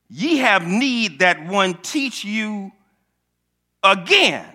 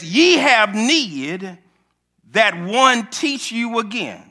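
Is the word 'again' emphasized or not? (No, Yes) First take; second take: Yes; No. First: The word 'again' is said with strong emphasis. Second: The word 'again' is said without special emphasis.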